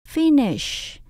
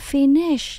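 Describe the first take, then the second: First: The stress is on the first syllable. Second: The stress is on the second syllable. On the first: The speaker calls it right. "Chữ phí phải cao hơn chữ nish" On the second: The speaker calls it wrong. "Mình đọc như vậy là mình đã nhấn sai"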